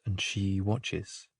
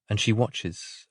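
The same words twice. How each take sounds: First: Much softer, slow, dying away; echoing the line as it fades out; fading hush. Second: Said in the usual way. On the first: A narrator's reading. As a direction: let the words drift off into silence.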